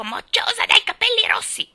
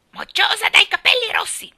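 First: Shrill, high squawking parrot voice; parrot's screech. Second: High, loud contemptuous parrot screech; scornful parrot squawk. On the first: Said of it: "continuò a intervalli a lanciare il suo". (strillo di pappagallo acuto e forte) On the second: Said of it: "con tono di disprezzo profondo". (strillo sprezzante di pappagallo) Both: A narrator's reading.

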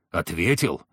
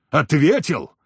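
First: Lower, held-in disbelief before the outburst; low incredulous echo. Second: Higher, rising outrage on the repeat; indignant louder echo. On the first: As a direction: repeat it low, as if hardly believing it. Furious hunter echoes the word. (глухо, недоверчиво переспросить) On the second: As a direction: throw the word back angrily. Furious hunter repeats, louder. (возмущённо, громче переспросить) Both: A narrator's reading.

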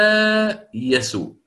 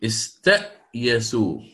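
First: استايسوا raised and slow with a long alif; alif form. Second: Slow استأيسوا, hamza moved before the ya; swapped hamza. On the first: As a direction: stretch the alif in استايسوا up high. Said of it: "ثم أبدل الهمزة ألفا". (استايسوا بألف ممدودة وصوت أعلى) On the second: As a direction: say استأيسوا slowly, hamza then ya. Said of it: "فصارت". (استأيسوا ببطء: الهمزة قبل الياء) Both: Shown as a demonstration.

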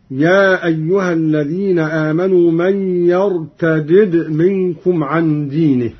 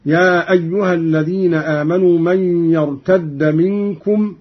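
First: يرتدد as yar-ta-did; unmerged dals. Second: يرتد as yartadda, one doubled d; merged dals. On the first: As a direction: recite يرتدد with two separate d's. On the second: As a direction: recite يرتد with the two d's fused. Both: Shown as a demonstration. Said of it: "والفك والإدغام وردت بهما اللغة".

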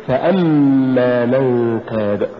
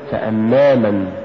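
First: فأما slow, ف set apart and hamza pushed; push after fa. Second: فأما run together, no push on the hamza; wrong stress. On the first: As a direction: lean on أما and draw out فأما. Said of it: "قل". (نطق فأما ببطء مع دفع الهمزة) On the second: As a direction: say فأما quicker as one word. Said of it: "ولا تقل". (نطق فأما دون دفع الهمزة) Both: Shown as a demonstration.

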